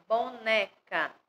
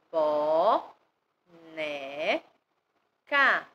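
First: Said in the usual way. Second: "bo, né, ca" as long, separate syllables with gaps; split into syllables. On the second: Shown as a demonstration. Teacher breaking boneca down for learners, "bo, né, ca" syllable by syllable. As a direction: sound out "bo, né, ca" one piece at a time. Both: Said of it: "A palavra boneca tem o".

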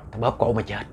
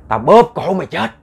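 First: Soft, low death threat; low ghostly threat. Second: Raised, forceful death threat; loud ghostly threat. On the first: Ghost threatens to strangle the woman, low and menacing. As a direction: keep the threat low and quiet. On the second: Ghost threatens to strangle the woman, loud and fierce. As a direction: punch it out higher and louder. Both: Acted.

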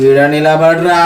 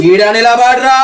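First: Slow-building order, held back; controlled menacing command. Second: Raised, higher-pitched order; forceful menacing command. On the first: Prankster orders the boy to stand, controlled menace. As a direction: order him to stand there, voice contained. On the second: Prankster orders the boy to stand, forceful menace. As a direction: repeat the order with mounting force. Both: Acted.

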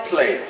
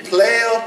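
First: Said in the usual way. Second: Raised call. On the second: Shown as a demonstration. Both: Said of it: "name called twice, rising then falling".

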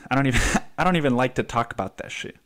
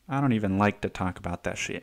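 First: Laughing. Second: Said in the usual way. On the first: Real, not acted. Laughing while repeating himself.

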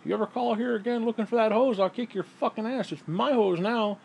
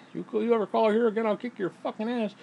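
First: Mock threat over a hose. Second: Higher, mock macho threat; lightly hammed-up threat. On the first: Threatening the ex-husband over the hose, mock macho. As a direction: growl it over the hose, half joking. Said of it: "he's like". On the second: The original threat in the old chapter, lightly hammed. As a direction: bark it like a tough guy, half joking. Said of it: "instead of saying".

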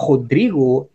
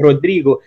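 First: Rodrigo with an H-like R, odrigo breathed in the throat; Brazilian R. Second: Rodrigo with the R tapped, Portuguese style. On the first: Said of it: "But if I say Rodrigo". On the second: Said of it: "if someone say Rodrigo". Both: Shown as a demonstration.

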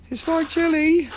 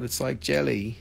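First: Jelly squeaked up high and a bit louder; squealed jelly. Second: Said in the usual way. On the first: Shown as a demonstration. Repeating the pendant description to the chat, squealed up high. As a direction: squeal it like a delighted cartoon voice.

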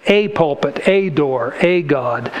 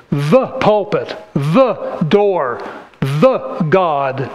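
First: A pulpit, a door, a God, each a pressed, falling lower; stress on a. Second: The pulpit, the door, the God, each the marked; stress on the. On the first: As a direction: contrast each a with the. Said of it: "it's automatically assumed as a". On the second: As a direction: list each the one by one. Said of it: "That's a definite article". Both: Shown as a demonstration.

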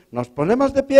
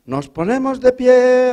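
First: Intoned much higher, stretched out; priest's call. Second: Drawn-out, higher and slow; sung-out priest command; priest's call. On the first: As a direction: sing it out like a priest. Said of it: "ha dicho el cura". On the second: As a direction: intone like a priest at mass. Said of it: "el cura ha dicho". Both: Retold or imitated.

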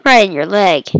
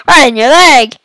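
First: Said in the usual way. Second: Loud taunt. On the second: Acted. Taunt repeated loudly.

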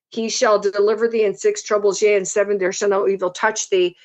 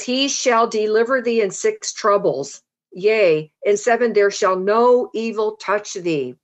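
First: Said in the usual way. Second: Declaimed verse with falling phrase ends; scripture reading. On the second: A narrator's reading. Preacher reads Job five to the congregation, scripture reading. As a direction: proclaim it phrase by phrase, measured.

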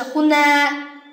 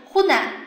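First: 湖南 said as hunaa, last vowel drawn out; long final vowel, mistaken. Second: 湖南 said as huna, last vowel short; short final vowel. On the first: Teacher showing what to avoid, final vowel long. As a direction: stretch the end of 湖南. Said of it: "而不是湖南". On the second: Teacher showing second example, final vowel short. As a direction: cut the end of 湖南 short. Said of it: "变成短音阶啊". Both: Shown as a demonstration.

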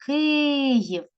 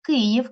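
First: Київ with a long, high first и; calling the word. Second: Said in the usual way. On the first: Shown as a demonstration. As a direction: call out Київ, stretching Ки. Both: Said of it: "кличемо слово Київ".

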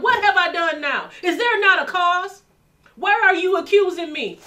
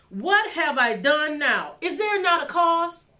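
First: Loud, high, forceful challenge; David demanding an answer, shouting; warrior's shout. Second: Said in the usual way. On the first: Retold or imitated. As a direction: thunder it like a warrior. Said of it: "No, David was a warrior". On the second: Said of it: "David didn't say that all nicely".

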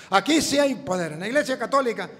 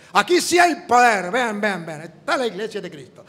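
First: Said in the usual way. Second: Imitating a preacher, loud shout that settles back; mock revival preacher crying out; mock pastor shout. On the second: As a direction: ham up the boasting pastor yelling to the crowd. Pastor preaching his power claim.

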